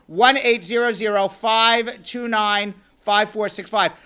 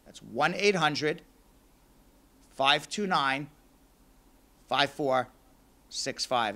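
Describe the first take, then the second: First: Quick, loud run through the digits; brisk announcer number read; number read fast. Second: Deliberate, slowed-down dictation; slow number read. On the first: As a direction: rattle the number off in one breath. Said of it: "I may be saying that number very, very fast". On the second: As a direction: give each digit its own beat for listeners. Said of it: "So let me say it a little slower". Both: Shown as a demonstration.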